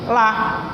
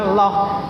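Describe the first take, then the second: First: The vowel is light and thin. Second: The vowel is heavy and full. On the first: The speaker calls it wrong. "dileutikeun ... jadi lah" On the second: The speaker calls it right. "betulnya loh"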